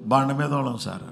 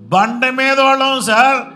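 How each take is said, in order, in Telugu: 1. ఈ మాట వేగంగా అంటారు. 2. ఈ మాట నెమ్మదిగా అంటారు. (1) "ఆమె ఫాస్ట్గా అంటుంటే" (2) "స్లోగా చెప్పాం"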